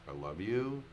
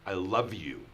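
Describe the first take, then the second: First: It is said as a question, doubtfully. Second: It is said in a harsh, angry tone. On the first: "as a question" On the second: "in an angry way"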